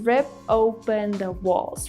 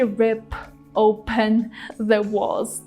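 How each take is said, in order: First: The P runs straight into 'open' without release. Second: The P is released before a separate 'open'. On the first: The speaker calls it right. "He said rip open the walls, right? Combining all of these words together" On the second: The speaker calls it wrong. "He didn't really say rip open the walls. That would be very hard to pronounce"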